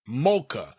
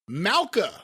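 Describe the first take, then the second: First: The first syllable sounds like 'mol'. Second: The first syllable sounds like 'mal'. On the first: The speaker calls it right. "Malka is pronounced more like Molka" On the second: The speaker calls it wrong. "we'll still call her Malka just because we've done that already"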